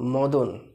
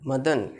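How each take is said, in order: First: The first vowel sounds like 'o'. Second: The first vowel sounds like 'a'. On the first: This is how Bengali speakers say it. The speaker calls it wrong. "আমরা কি বলবো মদন" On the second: This is how Hindi speakers say it. The speaker calls it right. "কিন্তু ওরা মদন বলবে না"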